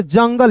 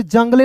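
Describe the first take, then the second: First: "जंगल" ending on l, silent e; correct reading. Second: "जंगले" with the final e sounded; mispronounced JUNGLE with "le" at the end; wrong reading. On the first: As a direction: say "जंगल" as jang-gal. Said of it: "जेयूएन को पढ़ेंगे दोस्तों जंग". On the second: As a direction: say "जंगले" as jang-ga-le. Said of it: "इसे जंगले नहीं पढ़ेंगे". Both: Shown as a demonstration.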